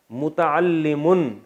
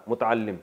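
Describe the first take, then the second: First: متعلم stretched very slowly, every syllable held; drawn-out drill word. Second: Said in the usual way. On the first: Shown as a demonstration. Teacher to students, drawing out متعلم very slowly. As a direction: spell out متعلم slowly for the class. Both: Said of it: "متعلم، سیکھنے والا".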